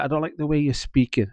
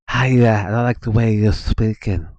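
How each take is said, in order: First: It is said in the speaker's plain voice. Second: It is said in a sly, snake-like voice.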